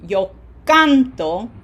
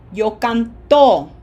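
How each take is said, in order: First: Slow canto with CAN punched, TO light; stress on CAN. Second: Slow canto with TO punched loud; stress on final TO. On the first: Teacher asking class to listen, canto stressed on CAN. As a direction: hit the first syllable of canto. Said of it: "it's very different". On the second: Teacher contrasting the meaning, canto stressed loudly on TO. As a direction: land hard on the last syllable of canto. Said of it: "difference in pronunciation emphasis". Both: Shown as a demonstration.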